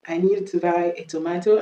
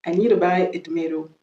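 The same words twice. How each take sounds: First: British "tomato", to-MAH-to; British accent. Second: American "tomato", to-MAY-do; American accent. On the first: Teacher repeating the example, British accent. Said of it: "on va faire l'accent british". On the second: Teacher repeating the example, American accent. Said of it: "je viens de faire l'accent américain". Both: Shown as a demonstration.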